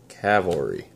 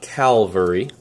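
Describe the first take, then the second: First: The L sound comes after the V sound. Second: The L sound comes before the V sound. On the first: The speaker calls it right. "but Cavalry" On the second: The speaker calls it wrong. "Not Calvary"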